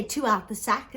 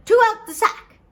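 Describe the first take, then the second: First: Said in the usual way. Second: High, loud magic command; commanding call. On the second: Acted. Poor man ordering the sack to open, commanding. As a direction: call it out sharply at high pitch.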